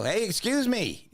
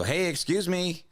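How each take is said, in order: First: Very high, slow, insistent call; retold second try, pitched right up; escalating call. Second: High, drawn-out call for attention; mildly raised retold call. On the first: Customer flagging a man ignoring him, more insistent call. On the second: Customer flagging a man cutting the line, first call. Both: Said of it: "then I'm yelling".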